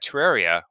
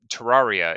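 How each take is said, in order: First: The name is said in a plain, ordinary way. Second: The name is said in a fancier, posher way.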